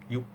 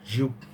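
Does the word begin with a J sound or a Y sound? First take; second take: Y sound; J sound. First: The word begins with a Y sound. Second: The word begins with a J sound. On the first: The speaker calls it right. "I think the correct pronunciation is Yup" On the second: The speaker calls it wrong. "many people say Jupe"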